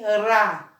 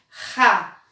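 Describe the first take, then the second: First: The R is a weak, light tap. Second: The R is a strong, rough sound. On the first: "o som dele é fraco" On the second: "não tem mais o som de ra"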